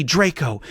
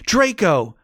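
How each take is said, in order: First: A first call of the name, only a little raised; screamed name. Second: Draco! thrown out higher and louder, peaking; screamed name, louder. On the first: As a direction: call out Draco!, holding back. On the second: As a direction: push Draco! to the top of the voice. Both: A narrator's reading. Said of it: "I screamed".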